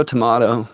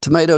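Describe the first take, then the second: First: Tomato said as "to-MAH-to"; to-MAH-to pronunciation. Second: Tomato said as "to-MAY-to"; long A in the middle of Tomato; to-MAY-to pronunciation. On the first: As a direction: open "ah" in the middle of tomato. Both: Shown as a demonstration.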